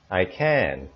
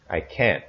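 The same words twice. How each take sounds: First: I can with a longer drawn-out can. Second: I can't with can't short and hard, T barely heard; short abrupt can't. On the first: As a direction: hold the vowel of can longer. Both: Shown as a demonstration. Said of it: "watch as I record my voice".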